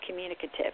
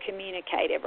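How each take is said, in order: First: "communicative" with a short, unstressed "cuh" before the ending; second pronunciation variant. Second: "communicative" with a long "cay" before the ending; first pronunciation variant. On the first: Therapist offering the other way to pronounce a term, "communicative" with short "cuh". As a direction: say "communicative" as com-MYU-ni-cuh-tive. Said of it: "or pronounce that word". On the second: Therapist offering one way to pronounce a term, "communicative" with "cay". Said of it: "however you like to say that word". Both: Shown as a demonstration.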